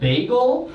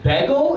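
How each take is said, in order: First: It is said in a New York accent. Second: It is said in a Philadelphia accent. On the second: "She said bagel"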